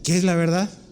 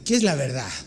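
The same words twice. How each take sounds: First: The question is asked in a sincere, curious tone. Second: The question is asked in a scornful, dismissive tone. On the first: The asker really wants to know the truth. "No es, sí" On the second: The truth does not matter. "O sea, ¿qué importa la verdad?"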